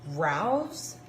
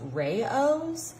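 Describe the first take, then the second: First: The name sounds like 'rouse', one syllable. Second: The name sounds like 'ray-ohs', two syllables. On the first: This is how the speaker has always said it. "I have always pronounced this marinara sauce Rouse" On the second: This is how others say it should be said. "people have been saying to me that it is pronounced Rayo's"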